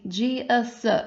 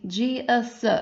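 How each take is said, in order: First: The two vowels are pronounced separately and slowly. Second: The two vowels are pronounced separately and slowly.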